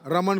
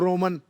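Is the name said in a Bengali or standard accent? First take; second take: standard; Bengali. First: The first vowel is a plain 'a' sound. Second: The first vowel is rounded to 'o', Bengali style.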